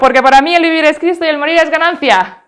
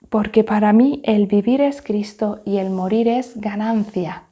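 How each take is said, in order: First: It is said very quickly. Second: It is said very softly and quietly. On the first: "vamos a decirlo ahora a continuación muy muy rápido" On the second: "Vamos a decirlo ahora muy bajito"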